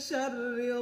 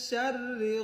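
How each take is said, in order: No difference in how they are said.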